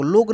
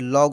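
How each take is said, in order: First: The vowel is a closed 'oh' sound. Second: The vowel is an open 'aw' sound. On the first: The speaker calls it wrong. "लोग नहीं" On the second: The speaker calls it right. "देखिए लॉग"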